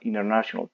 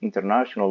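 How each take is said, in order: First: The middle t sound is dropped. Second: The middle t sound is clearly pronounced. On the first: "quito la, N, la, la T y de, se vuelve muda y va a sonar international" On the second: "Puedes decir international law. Las dos están correctas"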